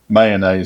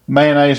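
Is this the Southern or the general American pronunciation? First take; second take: general; Southern. First: It uses the pronunciation common elsewhere. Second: It uses the Southern regional pronunciation. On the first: This is how people elsewhere in the country say it. "in the rest of the part of the country" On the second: This is how people in the South say it. "around here in the south"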